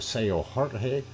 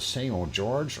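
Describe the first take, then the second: First: The name is said like Spanish Jorge. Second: The name is said like English George.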